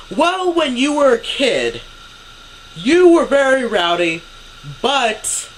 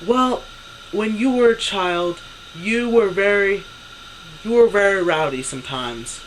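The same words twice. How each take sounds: First: High, loud mock-mom voice; raised, emphatic voice just short of a shout; imitated near-yelling. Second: Imitating mom's slightly raised voice; imitated raised voice. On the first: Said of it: "she's pretty much yelling". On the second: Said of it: "she raises her voice more and more".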